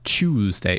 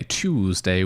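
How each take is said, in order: First: The word starts with a 'ch' sound. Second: The word starts with a hard T sound. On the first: "a completely normal pronunciation of a, a T U sound" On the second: "with the hard T"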